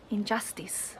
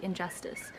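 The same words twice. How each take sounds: First: "Injustice" with a high i in the last syllable; high vowel in injustice. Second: "Injustice" with a schwa in the last syllable. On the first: Retold or imitated. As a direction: end "Injustice" in a tight "-tees". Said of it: "Uses a high vowel". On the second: Shown as a demonstration. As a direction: relax the end of "Injustice" to "-tus". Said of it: "where we would use a schwa".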